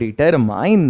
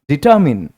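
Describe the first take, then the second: First: The last syllable rhymes with 'mine'. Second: The last syllable has a short 'min' sound. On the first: The speaker calls it wrong. "इसको डिटरमाइन नहीं" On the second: The speaker calls it right. "क्या पढ़ते हैं?"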